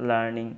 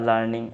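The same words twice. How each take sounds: No difference in how they are said.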